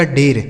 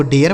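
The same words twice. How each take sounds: First: डेर with one long "ay" before the r; wrong pronunciation. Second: डेयर with a glide, "day-yer"; correct pronunciation. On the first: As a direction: say डेर as "dayr", like date. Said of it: "यहाँ डेर तो पढ़ा नहीं जा रहा है". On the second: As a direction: say डेयर as "de-ar", vowel gliding into r. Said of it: "इसको डेयर पढ़ा जाता है". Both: Shown as a demonstration.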